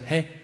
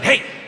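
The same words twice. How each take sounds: First: It is said softly and gently. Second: It is shouted aggressively, like yelling.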